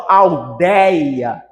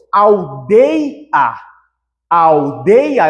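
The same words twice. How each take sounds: First: ALDEIA with a wide open é, "al-DÉI-a", drawn out; open diphthong. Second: ALDEIA with a closed ê in the middle, "al-DÊI-a"; deliberate mispronunciation of ALDEIA with closed ei; closed diphthong, wrong. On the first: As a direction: slowly stretch the open ÉI in ALDEIA. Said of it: "tenho que pronunciar abertamente". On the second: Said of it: "eu não falo aldeia". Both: Shown as a demonstration.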